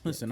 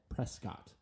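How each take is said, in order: First: The name is said the way locals say it. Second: The name is said the way newcomers say it. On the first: The speaker grew up there. "the pronunciation that we were both raised with historically" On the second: The speaker is new to town. "if you said Prescott instead of the pronunciation that we were both raised with"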